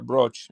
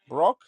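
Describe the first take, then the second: First: The word ends with a soft ch sound. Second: The word ends without a soft ch sound. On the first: "a soft ch as in ch. ... Like choo choo" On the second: "Did I say right?"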